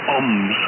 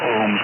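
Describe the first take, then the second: First: The word is said the way it looks written. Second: The word is said with its usual pronunciation. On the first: Someone learned it from reading alone. The speaker calls it wrong. "he always says oms" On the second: This is how it is normally said. The speaker calls it right. "not ohms"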